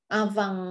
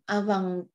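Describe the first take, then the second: The two takes are said the same way.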